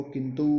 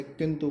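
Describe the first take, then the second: First: किंतु with the final u held as long oo; long final vowel. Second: Said in the usual way. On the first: Shown as a demonstration. Teacher showing the long-u error, किंतु ending in long oo. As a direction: end किंतु on a stretched "oo". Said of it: "कहते बड़ा ऊ". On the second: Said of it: "लिखते छोटा ऊ है और कहते बड़ा ऊ".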